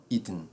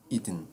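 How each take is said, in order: Both takes have the same delivery.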